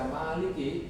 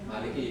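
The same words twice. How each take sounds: First: The first vowel is held long. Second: The first vowel is kept short. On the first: It follows the reading of Asim or Kisai. "itu berarti versinya guru Asim atau Kisai" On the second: It follows the reading of the other reciters. "Maliki pendek"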